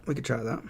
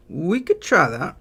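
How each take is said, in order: First: Said in the usual way. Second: Higher, slow and louder, stretching each word; drawn-out high take. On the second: Shown as a demonstration. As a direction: sing it out, lifted and slow. Streamer tries the idea twice.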